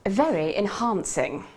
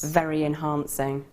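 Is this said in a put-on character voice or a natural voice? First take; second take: character voice; natural. First: It is said in a put-on character voice. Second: It is said in a natural speaking voice.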